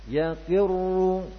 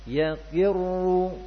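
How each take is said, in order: Both takes have the same delivery.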